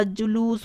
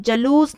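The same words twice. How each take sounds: First: जुलूस with ju; u in both syllables of जुलूस, softer; correct form. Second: जलूस with ja; wrong form. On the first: Teacher correcting students, जुलूस slowly as ju-loos. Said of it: "जुलूस होता है". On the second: Teacher showing the mistake, जलूस as ja-loos. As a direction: start जलूस on short a. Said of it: "जलूस नहीं होता". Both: Shown as a demonstration.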